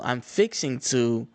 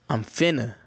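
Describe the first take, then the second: First: The words are said in full, fixing to. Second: The words are squeezed into one short finna. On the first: This is how it is supposed to be said. The speaker calls it right. "most people down south are supposed to say" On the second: This is how people actually talk. The speaker calls it wrong. "what they actually say is"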